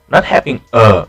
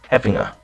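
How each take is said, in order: First: Each word is pronounced fully and carefully. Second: The words are reduced and run together. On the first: The speaker calls it wrong. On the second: The speaker calls it right. "a more natural version"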